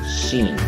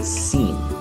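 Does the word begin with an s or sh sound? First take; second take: sh; s. First: The word begins with a sh sound. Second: The word begins with an s sound. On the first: The speaker calls it wrong. "you say sheen" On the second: The speaker calls it right. "it's supposed to be seen"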